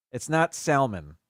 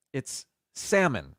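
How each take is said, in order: First: "salmon" with the L, "sal-mon"; "salmon" said with a clear L; wrong, L sounded. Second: "salmon" as "sam-mon", slow, no L; "salmon" slowly, drop the L; silent L. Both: Shown as a demonstration. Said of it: "without the L".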